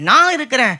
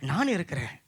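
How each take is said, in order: First: Loud, firm promise from God; emphatic proclamation. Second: Low, soft promise from God; quiet reassurance. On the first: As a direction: proclaim it with full conviction. God's words repeated forcefully. (உரத்த, உறுதியான அறிவிப்பு) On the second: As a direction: say it gently and low, to comfort. God's words, first said softly. (மென்மையான, தாழ்ந்த ஆறுதல் குரல்) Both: Acted.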